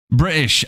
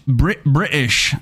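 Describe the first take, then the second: First: Said in the usual way. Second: Slow, drawn-out British accent. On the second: Shown as a demonstration. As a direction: try out British, slowly. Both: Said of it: "is the British evil voice?".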